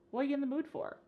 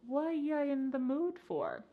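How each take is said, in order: First: The phrase is said very fast, words run together. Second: The phrase is said slowly, words kept apart. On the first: The speaker calls it right. "it's super fast" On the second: The speaker calls it wrong. "You don't want to say this reduction slowly"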